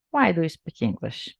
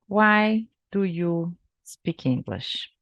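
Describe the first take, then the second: First: Said in the usual way. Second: Slow question. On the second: Shown as a demonstration. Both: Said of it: "O que que você responderia".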